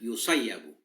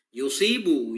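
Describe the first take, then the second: First: The middle is a doubled 'sayya' sound. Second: The middle is a short 'si' with kasra. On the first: The speaker calls it wrong. "bukan yusayyabu" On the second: The speaker calls it right. "secara zahir yang lebih akurat"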